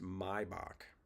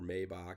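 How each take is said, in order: First: The first syllable sounds like 'my'. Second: The first syllable does not sound like 'my'. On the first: The speaker calls it right. "it is pronounced Maybach" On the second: The speaker calls it wrong. "It's not Maybach"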